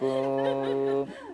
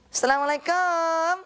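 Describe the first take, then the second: First: It sounds like a beggar asking for alms. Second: It sounds like a visitor calling at a house.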